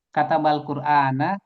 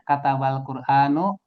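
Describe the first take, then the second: First: The last word ends with an 'a' vowel. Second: The last word ends with a 'u' vowel. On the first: Someone wrote the Quran. The speaker calls it right. "dibacanya harus dengan fathah" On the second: The Quran did the writing. The speaker calls it wrong. "Quran itu telah menulis"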